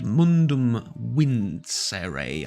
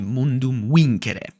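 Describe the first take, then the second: First: It is pronounced in a modern, non-classical way. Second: It is pronounced in a period-accurate classical way. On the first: "called Mundum Vincere, I think" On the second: "the period accurate pronunciation would be"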